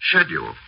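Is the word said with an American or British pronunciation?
British. It is said with a British pronunciation. "in the best fashion of the residents of Tunbridge Wells"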